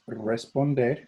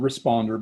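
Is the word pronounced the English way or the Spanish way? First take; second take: Spanish; English. First: It is pronounced as the Spanish word. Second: It is pronounced as the English word. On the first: "but it's pronounced responder" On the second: "Looks just like the word responder"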